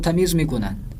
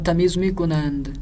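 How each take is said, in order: First: The verb ends in a plain n sound. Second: The verb ends in an nd sound. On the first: This is the everyday spoken form. "इस तरह से ईरानी बोलते हैं" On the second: This is the written form read from a text. "इसी तरह से पढ़ना है जिस तरह से लिखा हुआ है"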